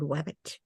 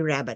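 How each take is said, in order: First: The word begins with a W sound. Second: The word begins with an R sound. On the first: "I said wabbit" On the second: "I didn't say rabbit"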